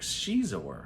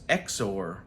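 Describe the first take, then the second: First: The name begins with a 'sh' sound. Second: The name begins with an 'eks' sound. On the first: The speaker believes this is correct. The speaker calls it right. "I think it's Caesar. Shizor" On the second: Other people say it this way. The speaker calls it wrong. "I've heard people say Prince Exor"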